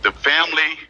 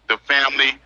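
No difference in how they are said.

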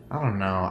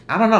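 First: Said in the usual way. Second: "I don't know" jumps much higher and louder, rising on "know"; exasperated outburst. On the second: Real, not acted. Fan unsure about the heroine's story, bursts out loudly. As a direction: blurt "I don't know" as a sudden excited cry.

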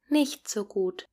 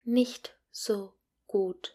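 First: Said in the usual way. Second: Slow, careful teacher model; each word given room for the class to repeat. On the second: Shown as a demonstration. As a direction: spell it out slowly for learners to copy. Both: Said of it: "Please repeat after me".

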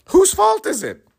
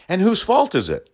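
First: Much higher, angrier repeat of the question; rising outburst. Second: Said in the usual way. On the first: Real, not acted. Repeating it to the audience in a high exasperated shout.

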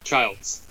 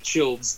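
First: Put-on Childs with a long i, as in "child"; long-i pronunciation. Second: Put-on Childs with a short i, like "chilled"; short-i mispronunciation. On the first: Host confirming his friend's surname, Childs with long i. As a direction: say Childs to rhyme with "wilds". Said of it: "I got one of them right". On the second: Host teasing his friend on purpose, Childs with short i. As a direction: say Childs to rhyme with "builds". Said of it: "just to be an asshole". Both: Shown as a demonstration.

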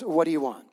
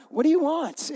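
First: Said in the usual way. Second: High-pitched, put-upon question; joking, exaggerated exasperation; mock exasperated. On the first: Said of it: "he didn't say it like that. He goes". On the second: Jesus answers the pushy mother, mock exasperated. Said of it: "No, he didn't say it like that".

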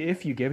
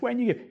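First: Contrasting stress on "If", pitch kept level. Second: "When" pitched high, then falling; stress on WHEN. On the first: Preacher contrasting Jesus' wording, stress on "If". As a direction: lean lightly on "If". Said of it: "notice Jesus doesn't say". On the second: Preacher correcting to what Jesus says, high stress on "When". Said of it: "he says". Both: Shown as a demonstration.

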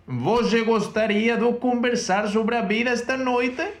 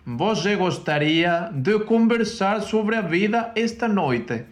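First: Slow, high Portuguese line, question tune slipping away; second careful try at the Portuguese question; Portuguese phrase again. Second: Slow Portuguese with a high, lifting question; Portuguese phrase. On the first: Retaking the Portuguese sentence for her teacher, slow and high. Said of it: "se me ha vuelto a ir la interrogación". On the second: Teaching partner hears her try the Portuguese question slowly. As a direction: sound out the Portuguese sentence slowly, aiming for a question. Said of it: "la traducción que yo haría al portugués sería".

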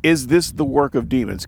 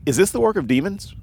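First: "Is this the work of demons?" with "this" stressed and falling; pointed question. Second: "is this the work of demons?" rising high and quick on "work"; "work" lifted in a searching question; questioning rise. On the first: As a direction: press on "this", falling firmly. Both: Shown as a demonstration.

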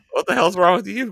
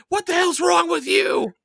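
First: Raised, louder retort, short of a scream; mock indignant comeback. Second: Very high-pitched imitation shriek; mock scream. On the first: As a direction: push back at the screamer, playfully affronted. Own comeback to the imitated scream. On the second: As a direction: screech it as Lisa, exaggerated. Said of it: "like, screams".

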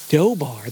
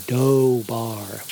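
First: Said in the usual way. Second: "Dobar" stretched out over two long syllables; "Dobar" said slowly, taking it in; elongating the word. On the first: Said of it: "elongating the word". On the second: A narrator's reading. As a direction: draw out each syllable of "Dobar". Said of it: "elongating the word so he could take it in fully".

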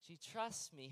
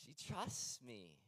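First: "She trusts me." restated firmly, stress falling on "trusts"; firm restatement. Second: Slow, soft and tender, savouring "She trusts me". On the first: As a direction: press on "trusts" to make the point to the congregation. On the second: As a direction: let "She trusts me." land slowly and gently, almost to yourself. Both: Shown as a demonstration.

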